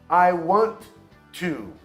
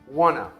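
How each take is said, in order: First: The word 'to' is pronounced in full. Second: The word 'to' is reduced to a weak 'a'.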